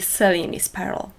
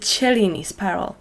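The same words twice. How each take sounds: First: Cellini is pronounced the English way. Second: Cellini is pronounced the Italian way. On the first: This is how the bead community usually says it. "the more established pronunciation in the bead community" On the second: This is the original pronunciation of the name. "that's how it should be pronounced"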